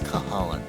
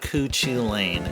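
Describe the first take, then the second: First: The name is said as 'Cahalan', ending in 'lan'. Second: The name is said as spelled, ending in 'lane'. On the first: The speaker calls it right. "it's Cahalan" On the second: The speaker calls it wrong. "It's not Cuchu Lane"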